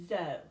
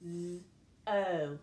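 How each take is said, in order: First: Said in the usual way. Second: Z and o sounded separately; sounding out. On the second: Shown as a demonstration. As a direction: hold the z, pause, then say "o". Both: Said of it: "So I would read this syllable".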